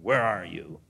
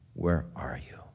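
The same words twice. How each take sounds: First: It is said harshly, like a threat. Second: It is said with a sob in the voice. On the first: The caller means to punish the one he seeks. The speaker calls it wrong. "here he is going to wring his neck" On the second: The caller grieves over the one he seeks. The speaker calls it right. "hear the sob in the voice"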